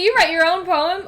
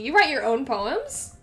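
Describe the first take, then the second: First: The voice falls at the end. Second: The voice rises at the end. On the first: It is a statement. The speaker calls it wrong. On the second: It is a question. The speaker calls it right.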